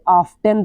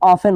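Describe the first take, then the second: First: The t is clearly sounded in the word. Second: The t is silent in the word. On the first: The speaker calls it wrong. "इसको प्राय बच्चे ऑफ्टेन पढ़ देते हैं, ये गलती है उनकी" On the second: The speaker calls it right. "जैसे ऑफन होता है"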